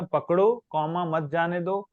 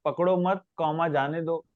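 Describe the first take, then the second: First: पकड़ो with a clear break, then मत जाने दो run together; pause after पकड़ो. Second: पकड़ो मत said together, then a break before जाने दो; pause after मत. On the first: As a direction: pause right after पकड़ो to show the comma. ("पकड़ो" के बाद रुककर, फिर "मत जाने दो") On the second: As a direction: pause after मत to show the comma. ("पकड़ो मत" के बाद रुककर, फिर "जाने दो") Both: Shown as a demonstration. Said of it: "लेकिन कॉमा लगा दो, लाइन बदल गई".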